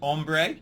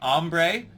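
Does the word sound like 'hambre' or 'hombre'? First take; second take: hombre; hambre. First: The first vowel sounds like 'o', as in hombre. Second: The first vowel sounds like 'ah', as in hambre. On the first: It means man. The speaker calls it right. "instead of hombre" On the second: It means hunger. The speaker calls it wrong. "the president is saying hombre"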